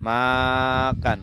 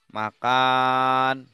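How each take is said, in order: First: The first syllable is drawn out long. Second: The second syllable is drawn out long. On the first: "maknya dipanjangkan" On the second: "Kalau kannya dipanjangkan"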